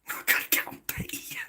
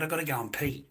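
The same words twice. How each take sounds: First: Whispered through a laugh; whispered giggle. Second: Said in the usual way. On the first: Real, not acted. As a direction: breathe it out while giggling.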